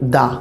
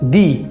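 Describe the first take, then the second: First: The word ends in a short 'uh' vowel. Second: The word ends in a long 'ee' vowel. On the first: The next word starts with a consonant. "যখন আমরা প্রথম লেটারটা consonant দেখব সেই ক্ষেত্রে আমরা বলবো দা" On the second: The next word starts with a vowel. "প্রথম লেটারটা যদি ভাওয়েল হয়ে থাকে কোনো একটা ওয়ার্ডের তখন আমরা বলবো দি"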